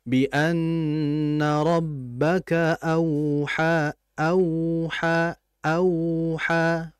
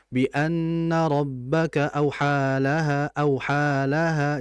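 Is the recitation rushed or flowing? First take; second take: flowing; rushed. First: It is recited slowly and smoothly. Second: It is recited quickly and rushed. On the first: The speaker calls it right. "biarkan ngalir dia" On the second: The speaker calls it wrong. "jangan terlalu cepat"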